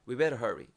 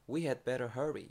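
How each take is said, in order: First: The word had is dropped entirely. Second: The word had is clearly pronounced. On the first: "헤드가 심지어 발음이 안 듣길 정도" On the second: "we had better hurry 이렇게도 말을 할수 있지만"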